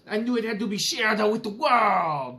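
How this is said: It is read in a mock Italian accent.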